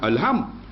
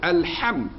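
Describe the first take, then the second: First: The h is a light, plain sound. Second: The h is a deep, breathy throat sound. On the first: It means meat. The speaker calls it wrong. "bukan alham" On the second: It means praise. The speaker calls it right. "kena sebut alham"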